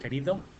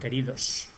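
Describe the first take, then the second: First: The final s is dropped after an open o. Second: The word ends with a clear s sound.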